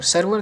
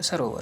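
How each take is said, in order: First: सर्वर as sar-var, two syllables; wrong form. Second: सरोवर as saro-var; corrected form. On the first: Teacher shows the error, सर्वर as sar-var. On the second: Teacher corrects students, सरोवर with full o. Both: Shown as a demonstration. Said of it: "नहीं होता".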